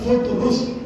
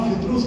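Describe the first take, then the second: First: The first syllable has a 'u' vowel. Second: The first syllable has an 'i' vowel. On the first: This is the original form of the name. The speaker calls it right. "असलन फुतरुस" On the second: This is the everyday form of the name. The speaker calls it wrong. "फितरूस का नाम फितरूस नहीं है"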